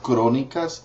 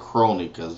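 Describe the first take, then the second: First: The R is said half-rolled. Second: The R is said plain, without rolling. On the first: "it's kind of like halfway rolling your R" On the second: "you could say Crónicas, and they would still understand you"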